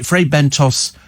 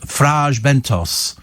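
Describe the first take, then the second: First: The name is said with an English pronunciation. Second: The name is said with a Spanish pronunciation. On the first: This is how the food brand is named. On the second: This is how the place is named locally.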